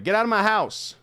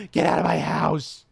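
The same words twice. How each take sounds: First: Loud, high shout at the thing; mock yell. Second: Loud shout in an altered voice; mock yell, voice changed. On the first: Player yelling at the game creature, loud high shout. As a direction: yell it out like shooing a monster. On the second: Player yelling at the creature again, loud altered shout.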